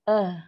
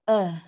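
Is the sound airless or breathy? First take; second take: breathy; breathy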